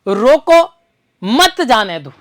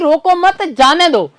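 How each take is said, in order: First: The pause comes right after the first word. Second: The pause comes right after the second word. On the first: The person should be stopped. "इसका अर्थ किससे हो गया, रोकने से हो गया" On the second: The person should be let go. "इसका अर्थ क्या हो गया, जाने देने से"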